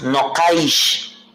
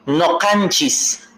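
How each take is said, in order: First: The word is shortened, ending in -aish. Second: The word is said in full, ending in -nchis. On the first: This is the form most people use today. "la mayoría decimos no caish" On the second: This is an old form that older people use. "una de las expresiones más antiguas, pero que se usa muy poco"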